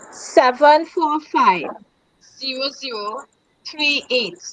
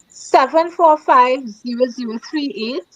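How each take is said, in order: First: The number is said more slowly. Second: The number is said at normal speed.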